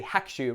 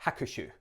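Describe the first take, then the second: First: First hakushu as HAK-shu, the u swallowed; preferred swallowed U. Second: Hakushu in three syllables, ha-ku-shu; fully sounded U. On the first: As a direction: say hakushu in two beats, nearly dropping the u after k. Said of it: "better to say hakushu". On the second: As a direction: pronounce every vowel in hakushu, ku included. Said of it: "rather than hakushu". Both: Shown as a demonstration.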